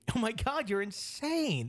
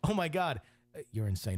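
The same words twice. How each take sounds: First: It is said in a delighted, admiring tone. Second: It is said in an alarmed, disapproving tone. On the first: The friend loves the idea. "That's great" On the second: The friend thinks the host is truly crazy. "honey. Get the kids"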